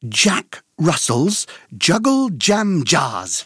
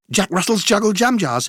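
First: The phrase is said at a moderate pace. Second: The phrase is said at a very fast pace.

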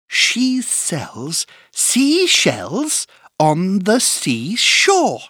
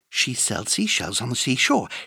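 First: It is said at a slow pace. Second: It is said at a very fast pace.

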